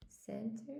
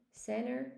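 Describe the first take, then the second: First: "Center" softly, with the t sounded; careful standard pronunciation. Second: "center" softly said as "senner"; American dropped t. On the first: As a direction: try out "Center" quietly with its t. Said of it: "American says sensor instead of center". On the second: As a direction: swallow the t in "center". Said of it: "maybe in some parts of America". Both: Shown as a demonstration.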